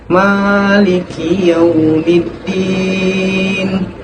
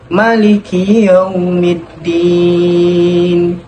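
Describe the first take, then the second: First: The first vowel of Maliki is held long. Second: The first vowel of Maliki is kept short. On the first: "dibaca panjang dua harokat" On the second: "hanya dibaca pendek"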